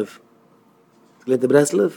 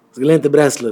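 First: Slow "Breslau?" with rising tune; questioning echo. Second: Said in the usual way. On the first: Acted. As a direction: draw out "Breslau" into a doubting question. Echoes the statement as question.

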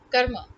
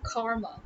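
First: Karma as KUR-ma, short first vowel; short 'uh' in the first syllable of karma; correct pronunciation. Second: Karma as KAR-ma, long 'ah'; long open first vowel in karma; mispronunciation. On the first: Teacher giving the right way, KUR-ma. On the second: Teacher showing what to replace, long KAR-ma. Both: Shown as a demonstration. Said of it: "Instead of karma".

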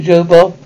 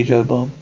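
First: Louder quoted call of a name; imitating Daddy Hank. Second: Said in the usual way. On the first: Stepson quoting Daddy Hank calling him, imitated summons. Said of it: "He says to me". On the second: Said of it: "He calls me Joe Bob".

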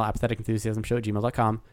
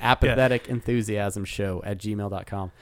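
First: Rattled-off email address; quick, run-together plug; too fast to hear. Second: Measured read-out of an email address; unhurried, distinct plug; slower, clearer repeat. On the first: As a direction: race through it in one breath. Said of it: "Did I say that fast enough". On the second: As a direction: spell it out word by word. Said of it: "fast enough for you not to be able". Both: Real, not acted.

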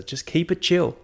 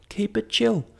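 First: Said in the usual way. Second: High squeaky keep it chill. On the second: Shown as a demonstration. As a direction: jump way up in pitch on keep it chill.

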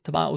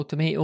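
First: Tomato with an open "ah", to-MAH-to; to-MAH-to pronunciation. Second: Tomato with a long "ay", to-MAY-to; to-MAY-to pronunciation. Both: Shown as a demonstration. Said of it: "Maybe both".

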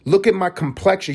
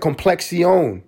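First: Said in the usual way. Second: "Complexion" drawn out slowly in a mock Spanish accent, higher. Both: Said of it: "She said complexion with a Spanish accent".

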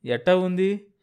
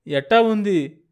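First: Raised, anxious question; worried asking. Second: Higher and louder, urgent and afraid; worried asking. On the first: Husband asking his fainted wife how she is, in worry. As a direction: ask her gently but fearfully. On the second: Husband asking his fainted wife again, louder in worry. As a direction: press her for an answer in alarm. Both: Acted. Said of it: "దిగులుగా అన్నాడు".

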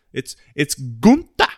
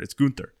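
First: Gunther drawn out, high and loud; stress on Gunther. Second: Said in the usual way. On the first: Real, not acted. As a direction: lean hard on "Gunther", slower. Repeating the name for emphasis.

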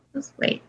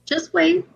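First: Breathy teasing whisper. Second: Said in the usual way. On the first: Acted. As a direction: whisper it like a secret. Teasing co-host to hold on.

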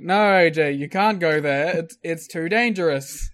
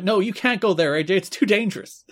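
First: Passive-aggressive. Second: High-pitched imitated plea; pleading. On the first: Retold or imitated. Commentators discouraging the wrestler, passive-aggressive. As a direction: feign concern, leaning on the "no". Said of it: "passive aggressively". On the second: Commentators begging the wrestler to stay, pleading. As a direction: plead with him, voice raised in pitch. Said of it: "I like Mike and Don pleading".

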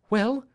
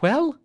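First: High, urgent questioning cry; eager wife crying out at the door; anxious cry. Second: Even higher, louder desperate question; wife pressing harder for news; more urgent cry. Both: Acted. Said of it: "she cried".

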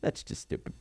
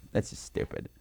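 First: Whispered echo; faint whisper. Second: Whispered aside; hushed whisper. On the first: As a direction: whisper it even softer. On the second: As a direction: breathe it out voiceless. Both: Shown as a demonstration. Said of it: "self-repeat".

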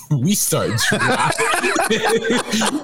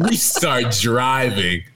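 First: Words squeezed out through laughter; laughing. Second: Said in the usual way. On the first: Real, not acted. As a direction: laugh as you say it. Laughs through the line, then repeats it.

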